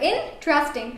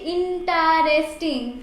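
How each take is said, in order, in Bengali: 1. শব্দটি কয়েকটি সিলেবলে চেপে বলা হয়েছে। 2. শব্দটি টেনে চার-পাঁচটি সিলেবলে বলা হয়েছে। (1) "এখানে দুটো সিলেবাল" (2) "চার পাঁচটা সিলেবাল চলে আসছে"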